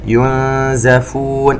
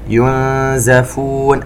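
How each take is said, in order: First: The Z is followed by an 'a' vowel. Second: The same.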